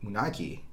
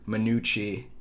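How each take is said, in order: First: The name ends with a 'kee' sound. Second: The name ends with a 'chee' sound. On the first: The town's usual local name. "instead of calling it Munaki" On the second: The name is mangled, seemingly to belittle the town. "he pronounces it like Manucci"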